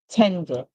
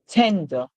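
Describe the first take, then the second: Both takes have the same delivery.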